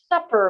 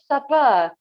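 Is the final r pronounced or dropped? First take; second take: pronounced; dropped. First: The word ends with a pronounced r sound. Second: The word ends in ah with no r. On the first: "you won't find a dinner or a supper menu" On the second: "but you will find a supper menu"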